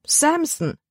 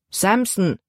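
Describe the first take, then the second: First: High dismayed cry of the name; calling out. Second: Said in the usual way. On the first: A narrator's reading. Libby hears the dog's name, high startled call. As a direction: blurt the name out much higher. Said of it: "rief Libby". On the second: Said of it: "antwortete ihr Vater".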